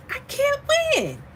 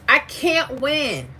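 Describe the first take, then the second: First: Comic high-pitched complaint about never winning; mock wail. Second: Said in the usual way. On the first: Shown as a demonstration. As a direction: leap far higher into a put-on exasperated wail.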